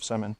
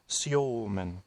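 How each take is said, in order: First: The name is said with an English pronunciation. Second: The name is said with a Russian pronunciation.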